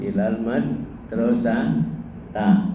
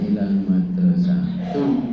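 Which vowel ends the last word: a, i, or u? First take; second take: a; u. First: The last word ends in an a vowel. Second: The last word ends in an u vowel. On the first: "tidak mungkin ilal madrasata" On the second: "tidak mungkin dibaca ilal madrasatu"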